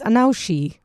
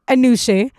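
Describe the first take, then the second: First: The middle vowel sounds like 'ow'. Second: The middle vowel sounds like 'oo'. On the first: This is how a phone reads the spelling. The speaker calls it wrong. "it says Anaushi. Well, because it's spelled like that" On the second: This is how the name is really said. The speaker calls it right. "but it's actually pronounced Anushe"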